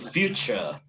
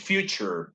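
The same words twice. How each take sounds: First: The final R sound is dropped. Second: The final R sound is pronounced. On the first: "He doesn't pronounce the final R" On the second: "American English future"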